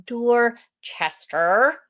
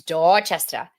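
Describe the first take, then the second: First: Dorchester said as "DOR-chester" with full r's; wrong pronunciation. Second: Dorchester said as "DOT-chest-uh"; correct pronunciation. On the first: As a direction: Dorchester drawn out, every r kept. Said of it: "It is not". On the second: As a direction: Dorchester with no r sounds. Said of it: "It's Dorchester". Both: Shown as a demonstration.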